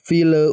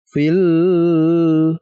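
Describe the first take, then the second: First: The l is sounded with a bouncing release. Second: The l is sounded with a nasal hum. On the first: "jangan dipantulkan... Contohnya fil fil bukan" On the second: "Tidak terus dibaca dengan dengung misalkan fil, jangan"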